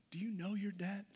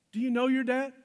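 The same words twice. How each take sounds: First: Asked softly, almost to themselves; soft searching question. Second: Higher and louder, pressing the point; louder, pressing question. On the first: Pastor asking the congregation, softly and searchingly. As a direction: let it land gently, a quiet probing question. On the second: Pastor challenging the congregation, loud and pressing. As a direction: push it out to the room, demanding an answer. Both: Real, not acted.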